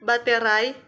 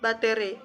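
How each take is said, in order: First: The word ends with an ai diphthong. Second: The word ends with a plain i vowel. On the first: This is the standard form. The speaker calls it right. "kata baku" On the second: This is the non-standard form. The speaker calls it wrong. "kata non-baku"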